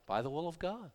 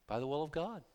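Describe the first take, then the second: No difference in how they are said.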